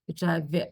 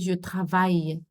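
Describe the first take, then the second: First: The word ends with an L sound. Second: The word ends with a Y sound. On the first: The speaker calls it wrong. "that's not how to pronounce it" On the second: The speaker calls it right. "the I L or the I double L is pronounced y"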